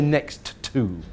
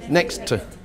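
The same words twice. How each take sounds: First: Two separate T sounds are said. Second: A single T sound joins both words. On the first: The speaker calls it wrong. "We don't say next to" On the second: The speaker calls it right. "we make it one T sound for both words"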